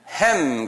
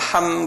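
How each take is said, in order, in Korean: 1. 모음은 'cat'의 'a'처럼 나요. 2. 모음은 열린 'ah' 소리예요. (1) "영어권 사람들은 햄 그래요. 그분들이 잘못 발음하는 거예요" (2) "한국말로는 함"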